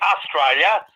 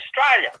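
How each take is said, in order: First: All syllables of the word are pronounced fully. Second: The word is clipped to a short slurred form. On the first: "because we're too lazy to say Australia" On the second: "so we just say Australia"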